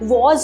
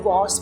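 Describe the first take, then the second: First: The word ends with a buzzing z sound. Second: The word ends with a hissing s sound. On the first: The speaker calls it wrong. "आपको वॉज नहीं बोलना है" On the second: The speaker calls it right. "वॉस बोलना है"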